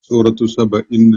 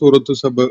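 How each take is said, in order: First: The name ends with an added 'in' sound. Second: The name ends plainly on 'Saba' with nothing added. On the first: The name is joined to the words that follow it. "അത് ചേർത്ത് പറയുമ്പോൾ ... അങ്ങനെ ചേർത്ത് പറയുകയും ചെയ്യും" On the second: The name is said alone, with nothing following it. "അത് പറയുമ്പോൾ നമ്മൾ സൂറത്തു സബ എന്ന് പറയാറുള്ളൂ"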